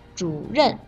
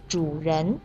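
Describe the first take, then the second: First: The second syllable has a falling fourth tone. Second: The second syllable has a rising second tone. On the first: It means the person in charge. "主任的任是四声" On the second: It means the host or owner. "主人的人是二声"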